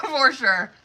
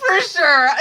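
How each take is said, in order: First: Said in the usual way. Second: Laughing through the words. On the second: Real, not acted. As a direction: laugh it out, then say it. Laughs at card reading.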